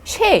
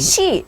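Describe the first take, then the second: First: The vowel sounds like 'eh'. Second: The vowel sounds like 'ee'. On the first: It is read by the phonics letter rules. The speaker calls it wrong. "파닉스 규칙으로 원래 읽어내려면 뭐 해, 쉐 이런 식으로 읽어야 되는 거예요" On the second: It is read as a sight word. The speaker calls it right. "근데 그게 아니라 he, she, the, 어 이렇게 읽어줘야"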